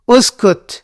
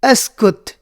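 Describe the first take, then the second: First: The word begins with a 'u' vowel. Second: The word begins with an 'a' vowel. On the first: "उसकुत भी बोल सकते हो" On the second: "अस्कुत भी बोल सकते हो"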